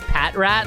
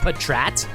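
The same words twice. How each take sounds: First: The name starts like the word 'pack'. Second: The name starts like the word 'patrol'. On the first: "like Packrat" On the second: "I've heard people pr pronounce it as Patrat"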